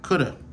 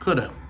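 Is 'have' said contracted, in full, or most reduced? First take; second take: most reduced; most reduced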